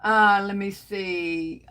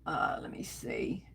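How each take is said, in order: First: Said in the usual way. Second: Under her breath, almost no voice; whisper. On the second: Real, not acted. Host scanning her livestream comments, whispered. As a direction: breathe it to yourself while searching the comments.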